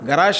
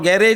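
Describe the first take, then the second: First: The word ends with a soft 'sh' sound. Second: The word ends with a hard 'j' sound. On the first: This is how English people say it. "ಗರಾಶ್ ಅಂತಾರೆ ಅವರು ಆಂಗ್ಲ ಜನ" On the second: This is how local speakers say it. "ನಾವು ಗ್ಯಾರೇಜ್ ಅಂತೀವಿ"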